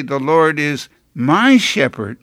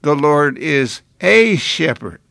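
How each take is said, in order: First: "my" weighted and falling, owning it; The Lord is MY shepherd, with "my" leaned on; stress on my. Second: "a" stressed and falling, the wrong reading; The Lord is A shepherd, with "a" leaned on. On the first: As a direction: lean on "my" as a personal claim. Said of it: "Until we say". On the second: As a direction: lean on "a" to show the detached reading. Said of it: "some people read this psalm". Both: Shown as a demonstration.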